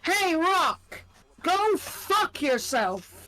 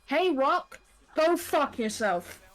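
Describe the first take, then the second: First: It is said with stronger, more forceful intensity. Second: It is said with ordinary, moderate intensity. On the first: "Or should I say it with a bit more?" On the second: "I am gonna repeat what Cody said, and I fucking mean this"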